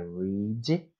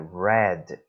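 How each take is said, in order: First: The word does not sound like 'red'. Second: The word sounds like the colour 'red'. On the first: The action happens in the present. "aqui é read no presente" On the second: The action happened in the past. "aqui é read no passado. Parece a cor mesmo vermelho, red"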